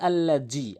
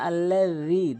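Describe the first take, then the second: First: The middle consonant is a z sound. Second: The middle consonant is a th sound. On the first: The speaker calls it wrong. "আল্লাহ জি বলা যাবে না" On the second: The speaker calls it right. "জিব্বার আগে দাঁতের আগে জালটি উচ্চারণ করতে হবে।"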